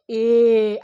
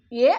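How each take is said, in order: First: "ఏ" held long and loud; long vowel. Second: "ఏ" said short and loud; short vowel. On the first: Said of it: "దీర్ఘాలు అంటారు కదా". ("ఏ" గట్టిగా, దీర్ఘంగా) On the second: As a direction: cut "ఏ" short, as the small sound. ("ఏ" చిన్న శబ్దంగా, గట్టిగా) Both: Shown as a demonstration.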